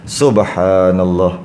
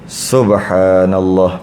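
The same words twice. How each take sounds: Both takes have the same delivery.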